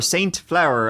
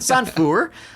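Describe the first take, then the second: First: The name is pronounced the speaker's own English way. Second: The name is pronounced the local French way. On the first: This is the speaker's personal way of saying it. "as I like to pronounce it" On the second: This is how the locals say it. "I guess is how they would pronounce it"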